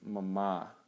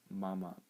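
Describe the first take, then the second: First: The second syllable is said with extra emphasis. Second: The second syllable is said without extra emphasis. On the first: It means pure or clean. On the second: It means ring.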